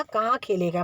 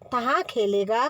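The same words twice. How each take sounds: First: Said in the usual way. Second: तहाँ with t for k; baby-talk lisp. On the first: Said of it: "मतलब". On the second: Retold or imitated. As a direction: coo it like a toddler. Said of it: "लाड़ी लाड में".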